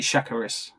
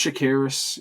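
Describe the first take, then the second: First: Chakiris with the stress up front, SHACK-uh-ris; first-syllable stress. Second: Chakiris with the stress on the middle syllable, sha-KEER-is; second-syllable stress. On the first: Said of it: "Or was it". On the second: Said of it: "is that how you pronounce it". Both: Shown as a demonstration.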